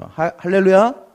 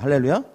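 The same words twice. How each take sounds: First: A slow, louder 할렐루야 calling for the response; louder hallelujah. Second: Said in the usual way. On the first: Shown as a demonstration. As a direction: stretch out 할렐루야 louder to rouse the crowd.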